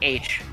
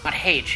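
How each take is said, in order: First: The letter name starts without an h sound. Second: The letter name starts with an h sound. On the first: The speaker calls it right. "I pronounce H" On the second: The speaker calls it wrong. "pronouncing the hard H in H is stupid"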